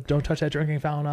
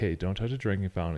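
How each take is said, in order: First: It sounds anxious and overly emotional. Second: It sounds calm and matter-of-fact.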